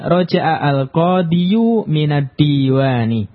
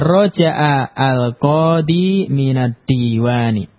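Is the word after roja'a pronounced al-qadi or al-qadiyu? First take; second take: al-qadiyu; al-qadi. First: The noun ends with an added -yu sound. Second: The noun ends in a plain long -i. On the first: The speaker calls it wrong. "Kita katakan dia salah" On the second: The speaker calls it right. "Yang benar adalah"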